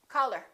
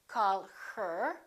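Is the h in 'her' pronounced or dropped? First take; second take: dropped; pronounced. First: The h in her is dropped. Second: The h in her is clearly pronounced. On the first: The speaker calls it right. "We drop the H" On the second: The speaker calls it wrong. "We don't say call her"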